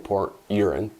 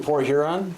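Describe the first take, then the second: First: The name begins with a vowel, no h. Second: The name begins with a clear h sound.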